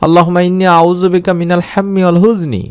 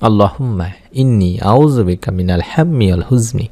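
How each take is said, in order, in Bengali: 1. বাক্যটি দ্রুত গতিতে বলা হয়েছে। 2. বাক্যটি ধীর গতিতে বলা হয়েছে।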